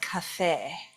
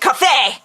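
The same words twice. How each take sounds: First: It is said in a softer Southern German accent. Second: It is said in a harsher Northern German accent. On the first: The coffee can taste good. The speaker calls it right. "instead of cafe" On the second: The coffee cannot taste good. The speaker calls it wrong. "how can it taste good if you call it cafe"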